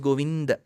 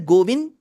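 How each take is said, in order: First: The name ends with a short final vowel. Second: The name ends without any final vowel. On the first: The speaker calls it right. "It is Govind" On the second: The speaker calls it wrong. "It is neither Govind"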